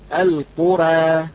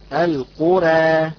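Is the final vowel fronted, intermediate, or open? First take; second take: intermediate; intermediate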